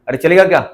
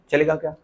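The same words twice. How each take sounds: First: Teacher's raised nudge; prodding repeat. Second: Asked quietly, trailing off; muttered check; soft question. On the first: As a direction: call it out again with अरे. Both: Real, not acted.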